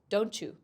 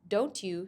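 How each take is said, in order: First: The t and y blend into one new sound. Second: The t and y sounds stay separate.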